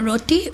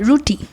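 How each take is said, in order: First: The first vowel sounds like 'oh'. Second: The first vowel sounds like 'oo'. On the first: This is how others say it. "we don't call it roti" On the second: This is how the speaker's own community says it. "We call it ruti"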